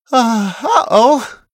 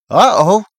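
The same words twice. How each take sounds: First: Slow, high, drawn-out uh-oh; dismayed uh-oh. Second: "Uh-oh" loud and high, rising as a question; questioning echo. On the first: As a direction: realise mid-sentence that it went wrong. Character realises something went wrong. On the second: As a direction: echo "Uh-oh" back as a puzzled question. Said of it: "Connor asks". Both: A narrator's reading.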